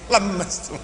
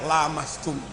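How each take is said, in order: First: It is said with a Madurese accent. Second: It is said plainly, with no doubled consonant. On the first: "diucapkan orang Madura lemastum" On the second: "landai aja lamastum"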